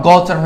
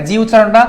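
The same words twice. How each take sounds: First: "গ" said as a hard g. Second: "জি" said with a soft j sound; name the soft G as "জি". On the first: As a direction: give "গ" the hard sound, not j. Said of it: "সেটা হচ্ছে hard উচ্চারণ". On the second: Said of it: "জেনারেল হয়েছে". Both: Shown as a demonstration.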